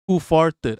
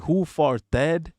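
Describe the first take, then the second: First: Said in the usual way. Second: "farted" split as far-TED, full final vowel; puzzled reading of "farted" as far-TED; misread name. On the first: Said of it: "I got it now". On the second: Retold or imitated. Streamer recalling misreading a viewer's username, "farted" said as far-TED. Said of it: "I was like".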